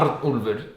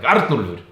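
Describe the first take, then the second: First: It is said at a normal volume. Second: It is screamed loudly.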